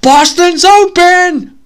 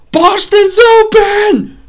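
First: Loud, slow, higher call to be heard; eager announcing yell. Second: Even louder, slower, higher repeat of the call; all-out excited yell; full shout. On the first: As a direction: shout the news across the room, drawing it out. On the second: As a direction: bellow it so he can't miss it. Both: Retold or imitated. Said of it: "somebody get this to him and say".

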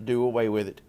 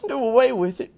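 First: Said in the usual way. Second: High, loud outraged screech; shrieked horrified question. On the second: A narrator's reading. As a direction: screech it in disbelief as a little girl. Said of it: "screeched Fern".

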